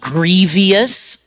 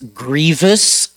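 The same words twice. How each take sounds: First: It has an extra 'ee' vowel before the ending. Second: It has no extra vowel before the ending. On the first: The speaker calls it wrong. "not grievous. Be careful not to add that extra I in there" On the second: The speaker calls it right. "it's grievous"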